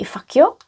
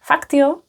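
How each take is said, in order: First: The T sound is dropped entirely. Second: The T sound is clearly pronounced. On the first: "they would not pronounce the T, they would just say" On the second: "And I'm even pronouncing the T"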